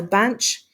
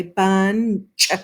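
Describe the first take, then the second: First: Said in the usual way. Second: "bunch" broken into "bun", gap, "chuh"; exaggerated split. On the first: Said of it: "bunch is a one syllable word". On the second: Shown as a demonstration. Teacher checking syllables, bunch split into bun-ch. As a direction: detach the final ch of "bunch" as its own beat. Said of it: "exaggerate the way we say it".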